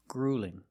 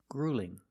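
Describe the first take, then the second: The two takes are said the same way.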